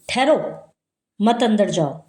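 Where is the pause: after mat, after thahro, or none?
after thahro. There is a pause right after the first word. The listener is told to wait and not go in. "मना कर रहा है कि वे अंदर मत जाओ, ठहर जाओ"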